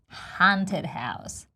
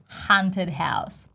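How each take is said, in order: No difference in how they are said.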